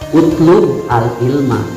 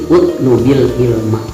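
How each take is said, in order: First: The b is said without a following vowel. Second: The b is linked to the next word with i. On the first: "ari fi'il amar teh dijajemkeun dibacana utlub" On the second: "berilah harokat kasroh jadi utlubil ilma"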